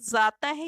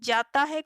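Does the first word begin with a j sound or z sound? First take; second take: z sound; j sound. First: The word begins with a z sound. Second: The word begins with a j sound. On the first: The speaker calls it wrong. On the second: The speaker calls it right.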